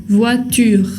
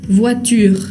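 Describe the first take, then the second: Both takes have the same delivery.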